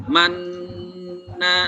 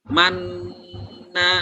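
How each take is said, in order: No difference in how they are said.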